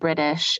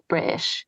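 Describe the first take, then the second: First: The middle consonant is a clear t sound. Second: The middle consonant is a glottal stop. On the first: "instead of British" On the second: "it's got a glottal stop"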